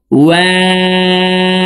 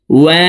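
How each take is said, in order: First: ওয়াও chanted very slowly and high through rounded lips; long round-lipped ওয়াও; rounded waw. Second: Said in the usual way. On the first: Shown as a demonstration. Teacher models waw for viewers, round-lipped chant. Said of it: "দুই ঠোঁট গোল করে দুই ঠোঁটের মাঝে ফাঁকা রেখে". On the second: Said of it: "দুই ঠোঁট গোল করে".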